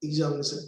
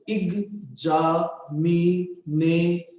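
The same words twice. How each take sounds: First: Said in the usual way. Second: "examination" slowly chanted as ex-a-mi-na-tion; split in five parts. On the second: Shown as a demonstration. Teacher showing five efforts in one word, syllable by syllable. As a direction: say "examination" in five even, separate beats. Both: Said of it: "in five parts".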